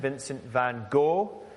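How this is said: The name is said the American way.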